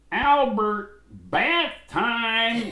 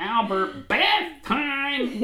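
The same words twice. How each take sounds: First: Loud high call across the house. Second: Even higher loud call; hollering for bath time. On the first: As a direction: call him in for his bath. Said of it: "they go". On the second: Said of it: "See, I'm ribbing myself". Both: Retold or imitated.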